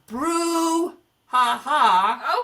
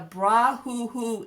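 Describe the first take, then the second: First: The word ends with 'ha ha' sounds. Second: The word ends with 'hoo hoo' sounds. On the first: The speaker calls it right. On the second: The speaker calls it wrong.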